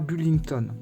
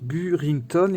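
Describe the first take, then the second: First: The middle consonant is pronounced as an L. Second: The middle consonant is pronounced as an R. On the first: The speaker calls it wrong. "on ne dit pas Bullington" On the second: The speaker calls it right. "elle s'appelle Burrington"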